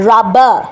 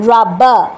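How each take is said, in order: The two takes are said the same way.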